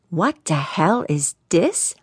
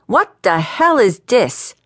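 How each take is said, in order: First: Slow, measured exasperation; slow fuming. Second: Fuming, raised New Orleans voice; a man with smoke coming out of his ears. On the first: Valentino repeats his demand to the young hotshot, slowly fuming. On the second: Valentino confronts the young hotshot in his office, fuming. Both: A narrator's reading. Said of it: "Smoke was starting to come out".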